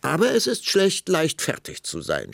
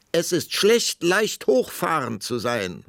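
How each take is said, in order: First: High, loud burst, dropping at the end; snorting impatience. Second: High, loud, drawn-out parting shot; calling after him. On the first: Queen losing patience with the king, snorting. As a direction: snap back, losing patience. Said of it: "schnaubte die Königin, die allmählich die Geduld verlor". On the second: Queen to departing king, calling after him. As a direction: call it after someone walking off. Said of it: "rief die Königin ihm nach". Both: A narrator's reading.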